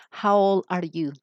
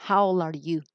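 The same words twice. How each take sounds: First: Put-on slow, clear How old are you; careful classroom model; slow model question. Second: Said in the usual way. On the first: Shown as a demonstration. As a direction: say it slowly to the class. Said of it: "you're going to use the question". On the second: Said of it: "This is the question".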